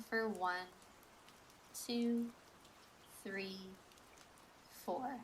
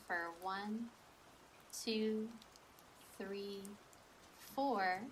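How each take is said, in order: Both takes have the same delivery.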